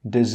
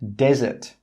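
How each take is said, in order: First: The stress is on the second syllable. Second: The stress is on the first syllable. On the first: "this word here can sometimes be pronounced as dessert" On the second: "The stress is on the first syllable"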